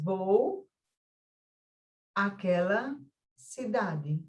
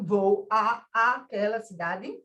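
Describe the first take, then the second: First: The two 'a' vowels merge into one. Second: The two 'a' vowels are said separately. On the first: The speaker calls it right. "na oralidade você diz, ... esse a com este a se fundiu" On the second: The speaker calls it wrong. "Vocês dizem assim"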